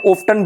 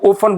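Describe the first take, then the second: First: The t sound is clearly pronounced. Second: The t sound is left silent. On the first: "ओफ्टन भी पढ़ते हैं American English में" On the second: "टी silent बोल देते हैं"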